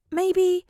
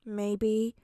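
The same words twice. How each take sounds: First: High loud excited maybe; light up with the idea. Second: Sulky mumbled maybe; pouting. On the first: Deku has idea. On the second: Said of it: "he pouts". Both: A narrator's reading.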